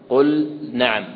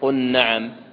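First: The L sound is pronounced clearly and separately. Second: The L sound merges into the following N. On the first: The speaker calls it right. "وأظهرن" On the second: The speaker calls it wrong. "لا تقول قل نعم"

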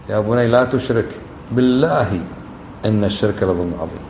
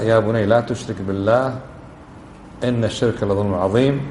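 First: The pause comes before the word billah. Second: The pause comes after the word billah. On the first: The speaker swears by God that associating partners is a great wrong. "شو تصير الثانية بالله؟ قسم. ها شوف الوقفة تعطي" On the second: Associating partners with God is forbidden. "لو قرأنا هكذا ... هذا معنى"

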